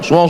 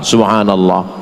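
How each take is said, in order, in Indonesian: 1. Frasa itu diucapkan cepat dan tidak jelas. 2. Frasa itu diucapkan pelan dan jelas. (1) "Ini sekarang banyak saya tengok orang zikir cepat kan" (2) "Jangan cepat-cepat"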